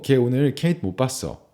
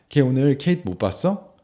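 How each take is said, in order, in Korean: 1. 평서문 억양으로 말합니다. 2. 의문문 억양으로 말합니다. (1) "평소문" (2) "의문문을 비교해보면 문장 순서는 동일하고 억양만 다르게 말합니다"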